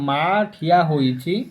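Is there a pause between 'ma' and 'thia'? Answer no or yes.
yes. A short pause separates 'ma' from 'thia'. The mother is standing. "ସେଠି ଟିକେ ବିରାମ ନେବା"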